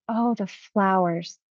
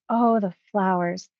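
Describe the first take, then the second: First: Slow, wondering oh, the flowers. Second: Said in the usual way. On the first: Retold or imitated. Client seeing flowers on the other side, slow wonder. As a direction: linger on the flowers in awe. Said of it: "And then he said". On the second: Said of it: "as he expressed".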